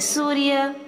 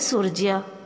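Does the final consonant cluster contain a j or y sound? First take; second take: y sound; j sound. First: The final cluster has a y sound. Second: The final cluster has a j sound. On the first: This is how Hindi speakers say it. "Hindi में उच्चारण है सूर्य" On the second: This is how Odia speakers say it. "Odia में उच्चारण है सूर्य"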